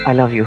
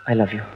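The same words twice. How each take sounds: First: The phrase is said loudly and forcefully. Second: The phrase is said softly and quietly. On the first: "जोर से बोलो।" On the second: "तो इतने धीरे से क्यों?"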